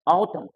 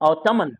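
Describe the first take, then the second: First: The final N sound is left out. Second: The final N sound is pronounced. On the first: The speaker calls it right. "लेकिन पढ़ना है ऑटम" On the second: The speaker calls it wrong. "लिखना है ऑटम"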